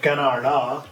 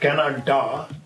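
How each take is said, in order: First: The middle consonant is a flapped r-like sound. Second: The middle consonant is a plain d sound. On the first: "this Bengali ra sound" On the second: "then D"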